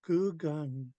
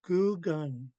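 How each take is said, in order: The two takes are said the same way.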